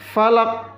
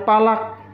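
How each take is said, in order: First: The word begins with an f sound. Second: The word begins with a p sound. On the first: The speaker calls it right. "bibir bawah bertemu dengan gigi atas" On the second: The speaker calls it wrong. "bukan palak"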